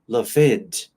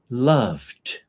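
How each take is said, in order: First: The e is sounded, adding an extra syllable. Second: The e is silent, ending on a d sound. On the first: The speaker calls it wrong. "It's not loved" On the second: The speaker calls it right. "You forget the letter E and you say the letter D"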